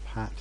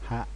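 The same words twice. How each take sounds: First: The final consonant is a T sound. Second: The final consonant is a glottal stop. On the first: "instead of" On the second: "people use a glottal stop in place of a T"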